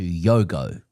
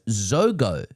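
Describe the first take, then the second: First: The word begins with a 'y' sound. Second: The word begins with a soft 'zh' sound. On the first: The speaker calls it wrong. "I instead said something closer to Yogo" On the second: The speaker calls it right. "is pronounced Zogo"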